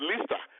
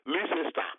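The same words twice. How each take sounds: First: The name is not said the way it's spelled. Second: Every written letter of the name is sounded out. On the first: The speaker calls it right. "but it's Leicester" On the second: The speaker calls it wrong. "you pronounce it as Leicester"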